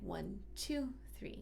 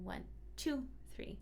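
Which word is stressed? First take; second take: two; two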